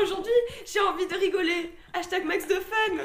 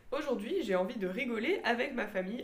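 First: Laughing. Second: Said in the usual way. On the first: Shown as a demonstration. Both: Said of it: "ça aurait pu s'arrêter à".

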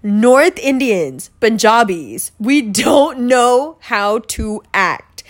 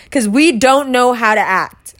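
First: "we don't know how to act" drawn out slowly, each word weighted; slow emphatic repeat. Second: Said in the usual way. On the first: Shown as a demonstration. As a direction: spell out "don't" slowly and firmly. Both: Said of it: "I'm just gonna put that out there".

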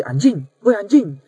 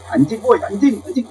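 First: Demo call. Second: Calling out. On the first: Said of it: "dengan intonasi yang sama". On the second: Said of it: "coba aja panggil orang tuh". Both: Shown as a demonstration.

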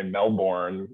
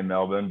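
First: Melbourne said "mel-BORN"; gringo pronunciation. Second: Melbourne said "MEL-bin"; Aussie pronunciation. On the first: Guest showing how outsiders sound to Australian colleagues, Melbourne as "mel-born". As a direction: say Melbourne as spelt, with a hard r in "born". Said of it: "you sound like a gringo". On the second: Guest telling the company story, Melbourne said the Aussie way as "MEL-bin". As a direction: say Melbourne the Australian way, r-less "bin" ending. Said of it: "trying to be an Aussie". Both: Shown as a demonstration.

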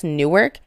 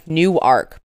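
First: Newark as NOO-erk, the ending weak; Jersey's Newark. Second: Newark as new-ARK, two full syllables; Delaware's Newark. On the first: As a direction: say Newark run together, with a swallowed "erk". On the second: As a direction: say Newark with a clear open "ark" at the end. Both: Shown as a demonstration. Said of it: "they're spelt the same way".

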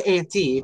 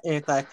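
First: "auntie" said AN-tee; rejected pronunciation. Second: "anti" said AN-tie; preferred name pronunciation. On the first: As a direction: end "auntie" like the word tee. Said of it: "Don't say auntie". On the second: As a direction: end "anti" like the word tie. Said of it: "I go by anti". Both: Shown as a demonstration.

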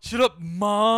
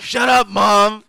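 First: Slow, loud, higher bratty yell; mock bratty teen. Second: Slow, loud, higher whiny yell; mock bratty teen. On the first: Echoing his friend's bratty yell at mom, mocking. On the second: A mock teenager yelling at his mother, bratty.

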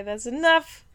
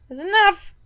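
First: Said in the usual way. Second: Louder, higher repeat to shut it down; firm cut-off. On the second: Real, not acted. Host cutting off co-host's sales bit, firmly. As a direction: put your foot down, louder.

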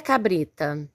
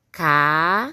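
First: Said in the usual way. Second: "Ca-bri-ta" split into ca, bri, ta with long pauses; syllable by syllable. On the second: Shown as a demonstration. Teacher leading pupils through cabrita, "Ca-bri-ta" syllable by syllable. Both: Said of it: "Vamos separar as sílabas".

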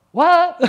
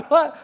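First: High, loud, incredulous "What?"; stunned "What?". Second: Said in the usual way. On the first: Retold or imitated. Passenger shocked by the narrator's claim, loud incredulous "What?". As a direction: hit "What?" as a shocked yelp.

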